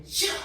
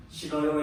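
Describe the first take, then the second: First: A mock-sharp, sulky "싫어!" tossed back; sharp whiny refusal. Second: Said in the usual way. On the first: Father imitating daughter refusing to wash, sharp and sulky. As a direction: snap "싫어!" like a stubborn child refusing. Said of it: "날카롭게 앙탈지게". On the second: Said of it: "해야지".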